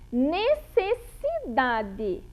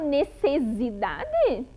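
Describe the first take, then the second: First: The middle consonant is a hissing S sound. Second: The middle consonant is a buzzing Z sound. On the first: The speaker calls it right. "ele não tá com o som do Z" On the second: The speaker calls it wrong. "Eu falo necessidade? Não"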